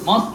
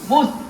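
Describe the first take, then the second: First: The vowel is an open 'o' sound. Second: The vowel is a rounded 'u' sound. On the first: The speaker calls it wrong. "মস না" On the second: The speaker calls it right. "ঠোঁট গুল করেন মুস মুস মুস"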